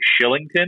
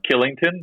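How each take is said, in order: First: The name starts with an sh sound. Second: The name starts with a k sound. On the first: "I think you pronounce it like Shillington" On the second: "but it's Killington"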